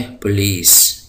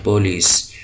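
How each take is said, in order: First: पुलिस with an unstressed English-style u, drawn out; English pronunciation. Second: पुलिस with a short Urdu-style o. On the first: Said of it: "इसको पढ़ा जाता है पुलिस". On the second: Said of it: "Urdu में हम इसको पुलिस कहते हैं". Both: Shown as a demonstration.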